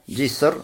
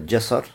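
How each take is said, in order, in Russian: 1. Первый гласный — i. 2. Первый гласный — a. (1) "можно сказать с кесрой" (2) "джасар с фатхой"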